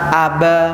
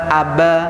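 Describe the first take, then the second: First: The b is single and passed over quickly. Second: The same.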